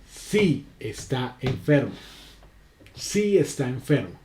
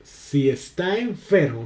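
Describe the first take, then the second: First: "Sí" said strong and slow at the start; affirming "Sí", stressed and drawn out. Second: "Si" said light, stress moved to "enfermo"; unstressed si. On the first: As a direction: lean on "Sí" as a firm yes. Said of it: "el sí lleva tilde". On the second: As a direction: let "Si" slip by and land on "enfermo". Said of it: "cómo estoy utilizando diferente la acentuación". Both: Shown as a demonstration.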